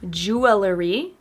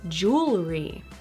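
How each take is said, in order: First: The word is said with an extra syllable. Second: The word is said with one syllable cut. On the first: The speaker calls it wrong. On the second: The speaker calls it right. "we cut out an extra syllable there"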